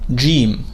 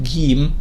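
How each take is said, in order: First: It begins with a J sound, as in George. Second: It begins with a hard G, as in girl. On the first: "roughly equivalent to the letter J or the sound J in English, as in George" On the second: "like Egyptian dialect, call it Gim and use it as G in English, as in the word girl"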